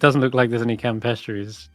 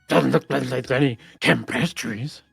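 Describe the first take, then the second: First: It is said in a plain, neutral tone. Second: It is said in a mocking, rude tone. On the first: This is the original remark being recalled. "That's what you said, right?" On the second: The remark is being echoed back to ridicule it. "a mocking kind of rude tone that sort of repeats what you just said"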